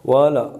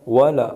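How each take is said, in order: Both takes have the same delivery.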